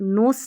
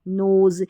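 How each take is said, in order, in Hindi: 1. इस शब्द के अंत में 's' की ध्वनि है। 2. इस शब्द के अंत में 'z' की ध्वनि है। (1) "नोस नहीं" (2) "यहाँ पर एस को ज पढ़ा जा रहा है"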